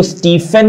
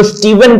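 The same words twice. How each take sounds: First: स्टीफन with an F in the middle; common mispronunciation. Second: स्टीवन with a voiced V in the middle; correct pronunciation. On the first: Teacher quoting how many people misread the name, F in स्टीफन. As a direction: say स्टीफन with an unvoiced "f". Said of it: "स्टीफन नहीं पढ़ा जाता". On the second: Teacher correcting the name for students, V sound in स्टीवन. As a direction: buzz a "v" inside स्टीवन. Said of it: "इसको स्टीवन पढ़ा जाता है". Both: Shown as a demonstration.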